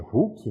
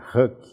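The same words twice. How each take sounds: First: The word is read with Portuguese spelling sounds. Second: The word is said with English sounds. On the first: "a gente lê hook" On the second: "Mas a pronúncia em inglês é hook"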